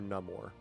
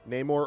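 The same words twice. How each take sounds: First: The first vowel sounds like 'ah'. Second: The first vowel sounds like 'ay'. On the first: "N A H M O R" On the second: "N A Y M O R"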